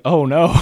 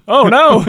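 First: Dismayed. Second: Much higher and louder, laughing through it. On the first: Retold or imitated. Realizing grandma will shoot the moon. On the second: Real, not acted. Laughing at grandma beating him at cards, higher and louder. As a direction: crack up at your own defeat.

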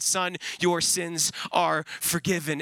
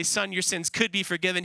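First: Slow "your sins are forgiven", each word set apart; deliberate, spaced emphasis. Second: "could" picked out within an even, running phrase; stress on could. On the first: Preacher quoting what Jesus did say, slow and deliberate. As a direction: land "are" firmly, with space before "forgiven". Actual words set against rejected wordings. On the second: Preacher quoting what Jesus didn't say, stress on "could". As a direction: lean on "could" as the doubtful word. Rejected wording set against actual words. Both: Acted.

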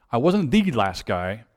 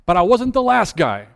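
First: "the" said as a drawn-out "thee"; slower, lean on "the" as "thee"; stress on THE. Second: Said in the usual way. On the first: Real, not acted. Former kid clarifying his rank, slow stress on "the".

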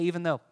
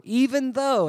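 First: Said in the usual way. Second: "Even though" hit loud and high; emphatic call for the congregation to repeat; stress on even though. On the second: Shown as a demonstration. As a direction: announce "Even though" with force. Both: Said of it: "everybody say".

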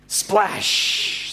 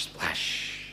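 First: Voiceless splash with a long sh; sound-effect splash. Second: Very soft, low trailing splash; whispered echo. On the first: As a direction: burst the word like water hitting. Imitating Jonah hitting water. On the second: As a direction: let it die away like an echo. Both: Acted.

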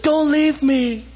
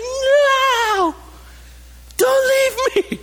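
First: Put-on high, slow whimpering plea from a left child; high drawn-out childish whine; child's plea. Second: Put-on high wailing child's cry, much louder; desperate tearful scream, voice shooting up high. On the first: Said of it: "It's like". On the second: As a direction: cry out like a child left at daycare. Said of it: "they cry out for you".

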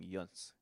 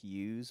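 First: "Yuns" said yoonz, with the n sounded; Irish "Yuns". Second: "yous" said yooz, without an n; misheard "yous". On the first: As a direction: put an n before the final s of "Yuns". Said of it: "but they're saying". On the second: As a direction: say "yous" as plain yooz, one syllable. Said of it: "you think it's kinda like". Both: Shown as a demonstration.

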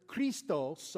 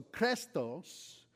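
First: Christos with a long "ee", KREE-stos, Spanish-style; Spanish-accented Greek. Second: Christos with a short "eh", KRESS-tohs, drawn out; Spanish-accented Greek. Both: Shown as a demonstration. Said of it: "pronounce Greek words with a Spanish accent".

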